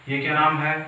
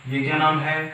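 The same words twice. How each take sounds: Both takes have the same delivery.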